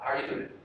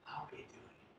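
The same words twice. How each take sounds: First: It sounds light, friendly and approachable. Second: It sounds pitying, as if things are terrible.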